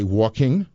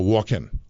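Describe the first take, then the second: First: The ending is a full ng sound. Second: The ending is a plain n sound. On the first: The speaker calls it right. "You had to say" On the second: The speaker calls it wrong. "she would not allow us to say things like"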